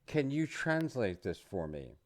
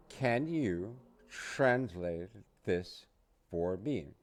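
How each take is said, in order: First: Said in the usual way. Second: "Can you translate this for me" drawn out slowly, word by word; slow it right down so learners can follow; slow model. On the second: Shown as a demonstration. Teacher says "Can you translate this for me" slowly for learners to repeat. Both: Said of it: "You say".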